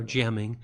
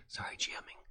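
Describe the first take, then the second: First: Said in the usual way. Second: Whispered "G M ing" as a joking self-correction; sheepish whisper. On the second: Shown as a demonstration. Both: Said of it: "he's a trademark".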